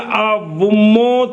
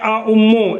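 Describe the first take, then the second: First: A w sound joins the two vowels. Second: A glottal stop separates the two vowels. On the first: "सानी को वाव के साथ ... बदल" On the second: "अव्वल हमजा मुतकल्लिम है"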